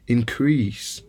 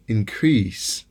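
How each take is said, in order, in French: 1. L'accent est sur la deuxième syllabe. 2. L'accent est sur la deuxième syllabe.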